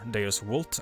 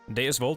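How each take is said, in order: First: It is said in the classical Latin pronunciation. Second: It is said in a non-classical pronunciation.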